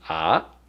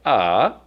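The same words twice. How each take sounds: First: The pitch rises from middle to high. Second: The pitch dips down and then rises. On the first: "the second tone, which is ah" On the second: "the third tone that goes down and up"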